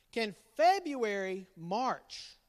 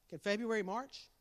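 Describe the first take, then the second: First: Slow, deliberate question; slow riddle. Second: Said in the usual way. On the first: Shown as a demonstration. Dad slowly posing the riddle to family. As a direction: draw the riddle out.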